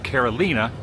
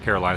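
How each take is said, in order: First: It is pronounced with a Spanish accent. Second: It is pronounced with an American accent. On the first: The speaker calls it right. "or Carolina" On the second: The speaker calls it wrong. "is how you would pronounce it in the U S"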